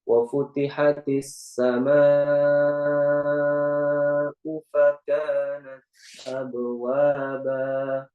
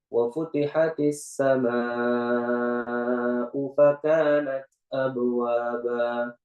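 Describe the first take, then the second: First: It is recited at a slow, deliberate pace. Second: It is recited at a moderate pace. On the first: "kalau kita tahqiq" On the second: "Kalau kita tadwir"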